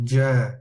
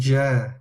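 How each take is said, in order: No difference in how they are said.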